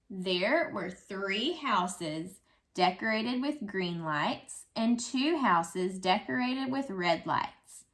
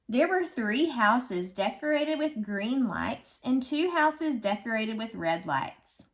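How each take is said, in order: First: It is read more slowly. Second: It is read at normal speed.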